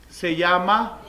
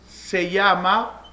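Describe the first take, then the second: The two takes are said the same way.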